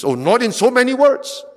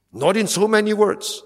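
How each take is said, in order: First: Much higher, louder "Oh, not in so many words"; emphatic outburst. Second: Said in the usual way. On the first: Shown as a demonstration. Preacher conceding false teachers never say it, emphatic. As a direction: burst out with it.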